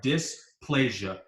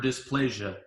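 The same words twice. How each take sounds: First: Dysplasia, stretched out slowly syllable by syllable; slow spelled-out word. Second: Said in the usual way. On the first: Shown as a demonstration. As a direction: sound out dysplasia slowly for the class. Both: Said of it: "this is what it sounds like".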